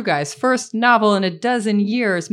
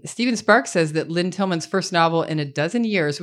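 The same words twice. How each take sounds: First: First novel in a dozen years, slowed and pressed home; slow emphatic repeat. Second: Said in the usual way. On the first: Shown as a demonstration. Host stresses to the crowd the long wait, slowly. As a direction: lean on novel, slow and deliberate. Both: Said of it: "which is true".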